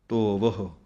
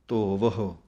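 No difference in how they are said.

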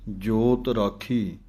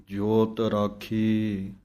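No difference in how they are said.

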